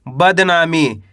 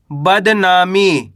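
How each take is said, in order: First: Said in the usual way. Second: बदनामी stretched very slowly, syllable by syllable; slow, drawn-out word. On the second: Shown as a demonstration. Teacher stretches बदनामी for pupils, very slow and drawn out. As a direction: draw out बदनामी so each sound can be heard. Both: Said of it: "इस तरीके से आप शब्द का उच्चारण सुनोगे".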